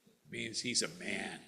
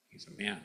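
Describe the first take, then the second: First: Said in the usual way. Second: Whispered repeat for emphasis; whispering. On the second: Real, not acted. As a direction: drop to a whisper. Repeats key line, second whispered.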